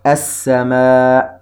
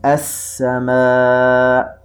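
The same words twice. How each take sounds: First: السماء drawn out, the sin doubled; slow demo. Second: السماء drawn out very slowly, the sin doubled; slow demo. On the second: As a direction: stretch السماء once more. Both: Shown as a demonstration. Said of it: "نرى الشدة واضحة على حرف السين".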